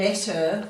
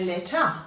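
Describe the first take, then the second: First: The ending is a clear er sound. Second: The ending is a weak schwa sound. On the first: "rather than saying letter" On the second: "we give it a schwat sound where we give it a grunt sound"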